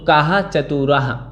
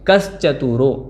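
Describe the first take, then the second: First: The two words are split with full word endings. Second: The two words are fused into one joined form.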